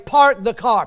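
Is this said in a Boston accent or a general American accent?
general American. It is said with the r sounds pronounced. This is the test phrase a speaker is asked to say. "Then say"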